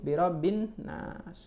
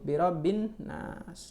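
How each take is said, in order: First: The L merges into a doubled N sound. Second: The L merges into a doubled N sound.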